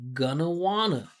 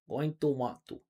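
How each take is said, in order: First: The words are blended into reduced forms. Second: Each word is said fully and separately. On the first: The speaker calls it right. "We say gonna, right? Stressed, unstressed, gonna wanna" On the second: The speaker calls it wrong. "We don't say going to want going to want to. That's what I hear in my class"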